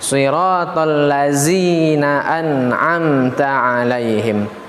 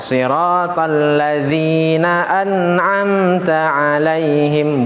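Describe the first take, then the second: First: The consonant is a plain buzzing z. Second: The consonant is a soft th-like sound. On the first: The speaker calls it wrong. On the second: The speaker calls it right. "yang benar adalah dengan meletakkan huruf zal"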